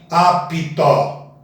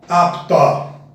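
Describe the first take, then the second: First: An extra i vowel splits the p and t. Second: The p and t join with no vowel between. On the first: The speaker calls it wrong. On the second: The speaker calls it right.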